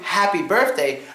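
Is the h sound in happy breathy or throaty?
breathy. The h is a soft, open breath. The speaker calls it right. "instead of saying happy birthday"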